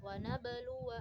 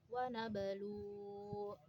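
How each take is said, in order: First: The word ends with a short 'wa' syllable. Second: The word ends on 'u' without the 'wa'. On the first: The reader continues on without stopping. "Ketika wasol" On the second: The reader stops at this word. "Ketika waqaf"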